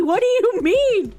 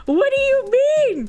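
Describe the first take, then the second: First: High, stretched, incredulous question; baffled protest. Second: Very high, wailing question; squealed disbelief. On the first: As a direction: ask it in whiny disbelief. First baffled take. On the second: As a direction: squeal it out in exaggerated bewilderment. Repeats it, more frantic. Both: Real, not acted.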